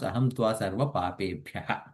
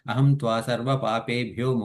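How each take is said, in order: First: The last word ends with an 'ah' sound. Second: The last word ends with an 'o' sound. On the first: The phrase ends here, before a pause. "because we are pausing there, we have to end the sentence there" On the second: The phrase runs straight on into the next word. "papebhyo is fine"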